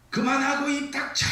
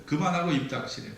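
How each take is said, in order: First: Sudden high-pitched yell; explosive, furious outburst; angry shout. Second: Said in the usual way. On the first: Acted. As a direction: act out a husband exploding at his wife. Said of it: "이때 남편이 버럭 소리를 질러요". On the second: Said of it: "막 소리를 막 버럭 질러요".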